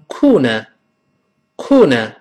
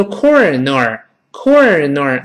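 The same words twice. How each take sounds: First: Corner in British style, no R; British pronunciation. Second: Corner slowly with R curled in both syllables; overdone curled R. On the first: Teacher shows how British people say it, British accent. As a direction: say corner British, open endings without curled tongue. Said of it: "英国人读成corner". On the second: Teacher shows what not to say, over-rhotic corner. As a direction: say corner awkwardly, tongue curled twice. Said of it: "你不能读corner". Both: Shown as a demonstration.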